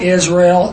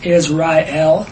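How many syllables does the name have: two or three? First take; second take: two; three. First: The name is said with two syllables. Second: The name is said with three syllables. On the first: The speaker calls it wrong. "not two syllables" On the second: The speaker calls it right. "three syllables"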